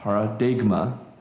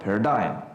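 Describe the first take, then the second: First: The g sound is clearly pronounced. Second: The g sound is left silent. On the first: This is the Greek pronunciation. "in Greek you pronounce the G" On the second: This is the English pronunciation. "just ignore it"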